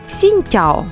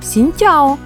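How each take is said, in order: First: The phrase is said with its usual greeting tones. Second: The phrase is said with different, changed tones. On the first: It is a greeting meaning good day. The speaker calls it right. "з тобою вітаються «сіньтяо»" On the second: It is a request for porridge. The speaker calls it wrong. "але з іншою інтонацією"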